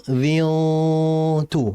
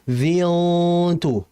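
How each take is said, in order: The two takes are said the same way.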